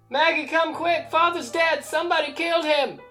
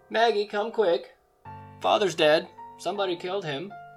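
First: It is said frantically, with alarm. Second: It is said loudly and matter-of-factly.

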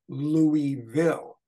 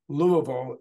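First: The 'ee' sound after 'Lou' is kept. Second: The 'ee' sound after 'Lou' is replaced. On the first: This is how most outsiders say the city name. The speaker calls it wrong. "instead of Louisville" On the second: This is how locals say the city name. The speaker calls it right. "It's Louisville"

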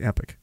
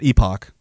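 First: The second syllable sounds like 'ick'. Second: The second syllable sounds like 'ock'. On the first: The speaker calls it right. "It's Epic. That's how you pronounce the word" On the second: The speaker calls it wrong. "It's not Epoch"

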